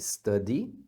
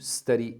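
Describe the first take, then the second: First: The middle consonant is a clear D sound. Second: The middle consonant is a quick R-like flap. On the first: "O verbo estudar você pode falar study" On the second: "pronunciarem o D também, entre vogais, como um R"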